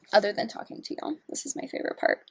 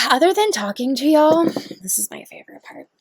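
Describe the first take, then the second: First: Hushed repeat. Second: Said in the usual way. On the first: Real, not acted.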